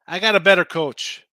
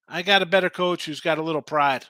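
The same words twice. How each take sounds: First: Got punched loud and falling; stress on got. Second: Said in the usual way. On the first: Real, not acted. To the stream, backing the Rams: got hit hard and loud. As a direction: lean hard on got, almost barking it. Emphatic betting opinion.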